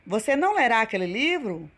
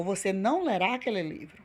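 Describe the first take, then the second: First: Quick negative question with lifted "livro"; question intonation. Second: Quick negative statement, "livro" dropping away; statement intonation. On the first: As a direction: ask it, pitch swinging up on "não" and "livro". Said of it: "com ponto de interrogação, fazendo uma pergunta". (entonação de pergunta) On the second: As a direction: state it as a full stop, falling on "livro". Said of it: "com ponto final". (entonação de afirmação com ponto final) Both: Shown as a demonstration.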